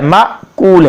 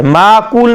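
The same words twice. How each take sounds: First: माकूल with a glottal catch after "ma"; short ma, stop, then kool in माकूल; hamza pronunciation. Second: माकूल with a long "maa" and no catch; mispronunciation demo. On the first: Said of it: "तो ये हमज़ा है". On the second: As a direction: run माकूल through smoothly, maa-kool. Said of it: "माकूल नहीं है". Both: Shown as a demonstration.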